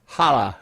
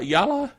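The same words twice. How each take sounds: First: "Holla" with an initial H sound, falling; H pronunciation. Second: "Yalla" with an initial Y sound, questioning rise; Y pronunciation. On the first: Host unsure of the tablet's name, trying "Holla" with an H. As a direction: try "Holla" starting like "hah", lower. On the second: Host unsure of the tablet's name, trying "Yalla" with a Y. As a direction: try "Yalla" starting like "yah". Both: Shown as a demonstration. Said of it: "Yalla or Holla?".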